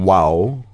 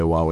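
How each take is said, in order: First: Said in the usual way. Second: "Wow" shaped by the tongue inside the mouth. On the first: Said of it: "So instead of saying". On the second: Shown as a demonstration. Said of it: "My tongue is gonna say, "Wow," inside my mouth".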